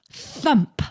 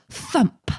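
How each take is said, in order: Both takes have the same delivery.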